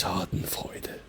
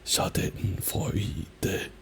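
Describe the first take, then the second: First: "Schadenfreude" connected, with a long first "a"; German "Schadenfreude", long first syllable, no breaks; natural German rhythm. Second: "Schadenfreude" broken into slow, equal syllables; soft, slow, syllable-by-syllable "Schadenfreude"; wrong even syllables. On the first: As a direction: say "Schadenfreude" as one word, leaning on "Scha". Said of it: "It's Schadenfreude". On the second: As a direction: space out each syllable of "Schadenfreude" evenly. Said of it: "It's not Schadenfreude". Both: Shown as a demonstration.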